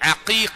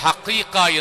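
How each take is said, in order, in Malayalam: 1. ഇത് തൊണ്ടയിൽ നിന്നുള്ള ain ശബ്ദത്തിലാണ് തുടങ്ങുന്നത്. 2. ഇത് h ശബ്ദത്തിലാണ് തുടങ്ങുന്നത്. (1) "ശരിയായ ഉച്ചാരണം ... അഖീഖ ഐനാണ് തുടങ്ങുന്നത്" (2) "ചിലപ്പോൾ ഹഖീഖ എന്ന് പറയും"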